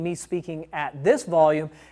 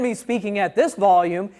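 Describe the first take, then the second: First: It is spoken at a quieter volume. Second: It is spoken at a louder volume.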